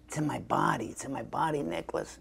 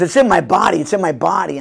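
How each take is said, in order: First: Much softer, hushed intense brother. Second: Louder, insistent take on the brother; emphatic brother. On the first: Brother explaining his method, hushed and intense. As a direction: murmur it like a mantra. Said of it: "he's kind of intense". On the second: Brother repeating his method, louder and insistent. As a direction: press it home with force. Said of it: "so he goes". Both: Retold or imitated.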